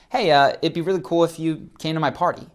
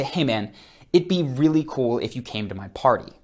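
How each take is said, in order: First: Casual, noncommittal ask with a slightly lifted pitch; loose invitation. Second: Mean it, as if they really should come; firmer invitation. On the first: Coach demonstrating a loose party invite to viewers. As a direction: offer it like you don't mind either way. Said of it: "That is loose". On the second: Coach contrasting a firmer party invite to viewers. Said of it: "I did change my tonality". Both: Shown as a demonstration.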